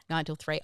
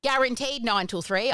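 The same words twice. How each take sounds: First: Chuckling the hours back, softer and lower; laughing repeat. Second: "Guaranteed" leaned on with a rising, tongue-in-cheek tune; "Guaranteed nine till three" sold with a wink; mock guarantee. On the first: Real, not acted. Host laughing at the advertised office hours. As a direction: laugh at your own promise as you repeat it. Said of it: "I laugh, I laugh". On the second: Host jokingly promising short office hours, mock-emphatic. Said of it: "honestly don't remember when we left before six".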